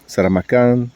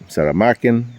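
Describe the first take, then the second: First: The stress falls on the last syllable. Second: The stress falls before the last syllable. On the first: This is how local people say it. "they put the emphasis at the end" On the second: This is how many English speakers say it. "a lot of people say Saramakan in English"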